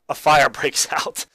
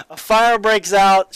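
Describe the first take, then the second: First: Slow words broken by a real laugh; laughing through it. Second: Higher, louder and slow, hammering each word; emphatic repeat. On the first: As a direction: chuckle as you say it. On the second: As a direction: repeat it with full force for disbelief. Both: Real, not acted.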